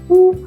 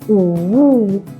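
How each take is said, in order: First: The pitch stays high and level. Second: The pitch dips down and then rises. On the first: "First tone 一声" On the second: "Third tone 三声"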